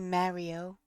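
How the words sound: The name is said in a New York accent. The speaker calls it right. "in New York, we don't say that name like that. We say Mario"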